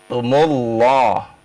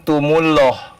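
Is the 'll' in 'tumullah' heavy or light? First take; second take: heavy; light. First: The double l sounds heavy and full. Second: The double l sounds light and thin. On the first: The speaker calls it right. "Tebal gitu baca Pak" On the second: The speaker calls it wrong. "Kalau tumullah tipis ya"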